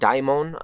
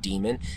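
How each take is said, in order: First: The first syllable sounds like 'die'. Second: The first syllable sounds like 'dee'. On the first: "I've heard people pronounce it daimon" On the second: "I've heard it also pronounced dictionary.com"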